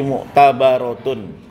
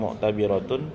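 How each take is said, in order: First: The vowel before 'r' is a. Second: The vowel before 'r' is i. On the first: The speaker calls it right. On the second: The speaker calls it wrong.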